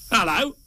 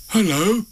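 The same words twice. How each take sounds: First: High-pitched creature answering back; strange animal. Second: Higher-pitched calling greeting; Pooh. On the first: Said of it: "said whatever it was". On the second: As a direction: call out hopefully into the dark. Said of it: "said Pooh". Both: A narrator's reading.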